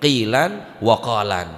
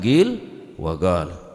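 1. Kata-kata itu diakhiri dengan bunyi n tambahan. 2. Kata-kata itu diakhiri tanpa bunyi n tambahan. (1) "ngakui tanwin" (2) "riwayat se bi ghairi tanwin"

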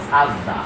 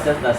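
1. প্রথম স্বরধ্বনিটির উচ্চারণ 'a'-এর মতো। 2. প্রথম স্বরধ্বনিটির উচ্চারণ 'e'-এর মতো। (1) "সেজদা কোনো শব্দ নেই, সাজদা" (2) "আমরা বলি সেজদা"

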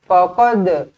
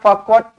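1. D di akhir dilepas dengan lantunan. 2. D di akhir datar, tanpa lantunan. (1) "lantunkan. Qalqalah kena lantun" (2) "Tak nak faqad"

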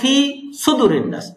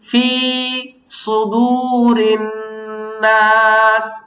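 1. sudu-এর স্বরটি ছোট, দীর্ঘ করা হয়নি। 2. fi এবং sudu, দুটোরই স্বর দীর্ঘ করা হয়েছে। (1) "2-1 হলো সুদুর টানটা দেয় না" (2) "এখানে ফিতে এবং সুদুতে 2 জায়গায় টান আছে"

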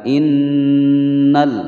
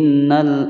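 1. Nun yang bertasydid itu ditahan selama dua ketukan. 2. Nun yang bertasydid itu dibaca cepat dan dipotong pendek. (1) "ditahan selama dua ketukan" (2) "terlalu buru-buru"

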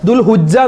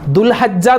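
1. h ന് ശേഷമുള്ള സ്വരം u ആണ്. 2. h ന് ശേഷമുള്ള സ്വരം a ആണ്. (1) "ദുൽഹുജ്ജ എന്ന് പറയാറുണ്ട്. അതൊക്കെ തെറ്റാണ്" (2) "ദുൽഹജ്ജ എന്ന് പറയാറുണ്ട്"

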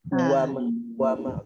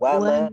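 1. Bunyi "u" pendek datang sebelum "wa". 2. "wa" dimulai langsung dari bibir yang membulat. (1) "Kalau mula daripada belakang tengok jadi uwa" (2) "so kita mula dengan muncung"

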